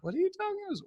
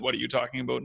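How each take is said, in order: First: It sounds unsure and hesitant. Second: It sounds confident and assertive.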